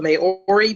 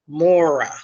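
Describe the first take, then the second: First: The name gets an Americanized pronunciation. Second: The name is pronounced like 'Mora'. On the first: The speaker calls it wrong. "I know I'm going to pronounce this wrong with my American accent" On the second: The speaker calls it right. "it was really pronounced Mora"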